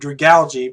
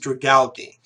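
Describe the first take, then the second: First: The ending sounds like the word algae. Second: The ending does not sound like algae. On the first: The speaker calls it right. "I've always known it was pronounced like algae" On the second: The speaker calls it wrong. "every time I tried to pronounce it, it was always"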